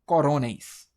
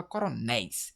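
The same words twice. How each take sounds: First: CORONÉIS as co-RÔ-neis, loud middle syllable; wrong-syllable stress. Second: CORONÉIS as coro-NÉIS, open é; last-syllable stress. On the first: Teacher showing what we don't say, CORONÉIS stressed co-RÔ-neis. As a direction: punch RO in CORONÉIS, weak ending. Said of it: "A gente não fala coronéis". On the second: Teacher giving correct form, CORONÉIS stressed coro-NÉIS. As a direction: land on NÉIS at the end of CORONÉIS. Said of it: "a gente fala coronéis". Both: Shown as a demonstration.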